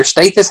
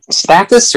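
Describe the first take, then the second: First: "Stathis" with a long A; second guess at "Stathis", A as in day; alternative pronunciation. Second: "Stathis" with a short A; first guess at "Stathis", A as in cat; trying a pronunciation. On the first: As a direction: say "Stathis" as STAY-this, questioning. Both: Shown as a demonstration. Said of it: "How do they pronounce it?".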